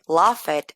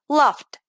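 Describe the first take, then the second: First: The ending is pronounced as a separate syllable. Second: The ending is a short T sound. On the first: The speaker calls it wrong. "En lugar de decir" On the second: The speaker calls it right. "voy a decir"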